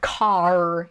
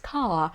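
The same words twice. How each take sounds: First: The final R sound is clearly pronounced. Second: The final R sound is dropped. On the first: "You're not saying car" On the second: "or British English, ... it's car"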